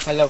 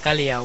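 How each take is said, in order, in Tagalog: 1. Binibigkas ito nang malinaw, walang idinagdag na katinig. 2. Sumusunod ang tunog na y pagkatapos ng l. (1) "Kalaw po is yung name of a bird" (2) "Kalyaw po is in Spanish word siya"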